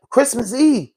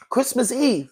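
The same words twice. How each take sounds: First: Higher, caught off guard; stunned disbelief. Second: Higher but softer, letting it sink in; heavy, sunk repeat. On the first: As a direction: say it like you can't believe it. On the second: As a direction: let the weight land, quieter. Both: Real, not acted. Repeats the date in disbelief.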